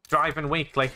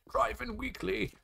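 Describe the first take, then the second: First: Said in the usual way. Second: High, soft, slow playful title. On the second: Pretend. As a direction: draw the title out softly up high. Repeats the magazine title playfully.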